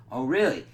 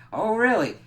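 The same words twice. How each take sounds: First: A loud, sarcastic "Oh, really?"; mocking challenge. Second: "Oh, really?" pitched much higher and louder, incredulous; escalated mocking challenge. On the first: Johnny scoffing loudly at the pleading demons. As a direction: throw it back at them, scoffing. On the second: Johnny mocking the demons, louder and higher. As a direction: ramp the sarcasm right up.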